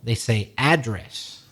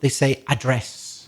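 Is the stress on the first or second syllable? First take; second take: first; second. First: The stress is on the first syllable. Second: The stress is on the second syllable. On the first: It means a location. "he would have changed the stress" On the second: It means to speak to or deal with. "for the other two meanings"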